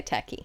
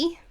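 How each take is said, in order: First: Said in the usual way. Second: Put-on American pronunciation of "tacky"; American accent. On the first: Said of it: "I say tacky". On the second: Shown as a demonstration. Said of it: "Do you go to say".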